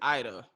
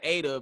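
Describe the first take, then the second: First: The name begins with an 'eye' vowel. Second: The name begins with an 'ah' vowel. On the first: The speaker calls it right. "but it's Ida" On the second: The speaker calls it wrong. "I always pronounce her name Ada"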